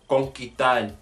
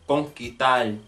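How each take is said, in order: First: The s sound before the t is dropped. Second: The s sound before the t is dropped.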